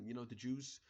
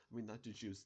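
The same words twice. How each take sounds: First: "the Jews" in a brief, accidental German accent; the German accent slips out for a moment on "the Jews". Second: Said in the usual way. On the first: Real, not acted. The vlogger's German accent slipping out while musing aloud. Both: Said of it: "I had a German accent for a second there".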